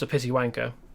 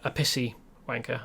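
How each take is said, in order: First: The words are spoken loosely, not carefully articulated. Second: The words are spoken with crisp, careful articulation.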